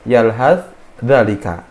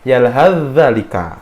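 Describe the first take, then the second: First: The 'th' sound is pronounced separately before 'dh'. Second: The 'th' sound is merged into the 'dh'. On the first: "agak sedikit sulit kalau kita melafalkan yalhas dalika" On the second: "sa-nya itu dileburkan atau dimasukkan ke huruf zal"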